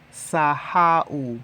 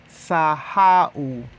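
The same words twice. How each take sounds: The two takes are said the same way.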